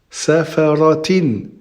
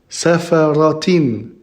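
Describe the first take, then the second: No difference in how they are said.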